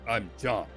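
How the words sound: It sounds stiff, flat and official. The speaker is being formal and distant. The speaker calls it wrong. "like a police officer"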